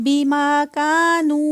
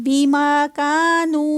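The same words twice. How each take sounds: The two takes are said the same way.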